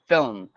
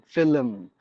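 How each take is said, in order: First: No extra vowel sound is added inside the word. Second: An extra vowel sound is added inside the word. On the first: The speaker calls it right. "the spelling itself is like film, F I L M" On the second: The speaker calls it wrong. "we actually introduce an extra sound like film"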